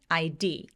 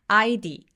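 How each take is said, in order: First: The stress is pushed onto the last letter. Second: The stress is not pushed onto the last letter. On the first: The speaker calls it right. "강세를 맨 뒤에 있는 스펠링이 조금 더 밀어 넣어서" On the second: The speaker calls it wrong. "아이디 아니고"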